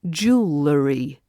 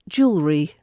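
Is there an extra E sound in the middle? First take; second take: yes; no. First: An extra E sound is added in the middle. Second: No extra E sound is added in the middle. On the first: The speaker calls it wrong. "the E sound added in the middle" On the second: The speaker calls it right. "the correct pronunciation"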